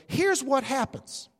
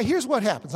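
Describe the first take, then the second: First: Here's drawn out, slow and weighty; slow stressed delivery. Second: Said in the usual way. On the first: Shown as a demonstration. Preacher repeating his point to the congregation, slow and stressed. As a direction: lean hard on Here's and slow it down.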